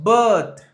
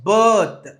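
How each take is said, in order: No difference in how they are said.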